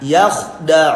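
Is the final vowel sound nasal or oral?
oral. The final vowel stays out of the nose. The speaker calls it right. "tapi gimana?"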